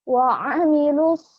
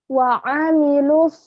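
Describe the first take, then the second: Both takes have the same delivery.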